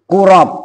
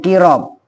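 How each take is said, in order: First: The first vowel is a rounded u sound. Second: The first vowel is a front i sound. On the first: "dibaca domah kof" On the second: "dibaca kasroh kofnya"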